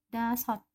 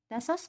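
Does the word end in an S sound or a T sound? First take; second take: T sound; S sound. First: The word ends with a T sound. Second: The word ends with an S sound. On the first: The speaker calls it right. "kalau siot ada di bawah maka bacanya menjadi T. Jadi dibaca dasot" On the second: The speaker calls it wrong. "Ditambahkan bacim siot menjadi dasos, begitu kan ya?"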